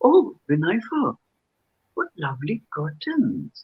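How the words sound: The tone sounds sarcastic and doubtful. The curtains are not really thought lovely. "sarcasm, doubtful"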